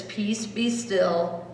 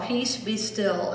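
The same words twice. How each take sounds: First: Slow and soft; slow reading. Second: Slow, softer; slow soft reading. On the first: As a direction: read each word slowly. Reading the chapel sign. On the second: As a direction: read the sign slowly. Reading sign again. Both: Shown as a demonstration.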